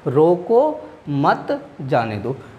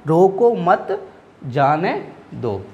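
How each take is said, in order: First: There is a short pause right after 'roko'. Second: There is a short pause right after 'mat'. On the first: Stop, do not let it go. "रो को फिर क्या लगे comma" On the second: Do not stop it, let it go. "उसके बाद क्या लगा है आपका अल्पविराम लगा है, तो थोड़ा रुकना है"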